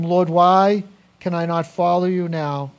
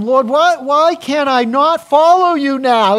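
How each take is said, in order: First: Said in the usual way. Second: High, loud, pleading cry, drawn out on the second line; eager plea. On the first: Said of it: "Peter said to him". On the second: Acted. Peter begging Jesus to let him follow, loud high plea. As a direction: beg to follow, voice straining upward. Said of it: "can't you hear him?".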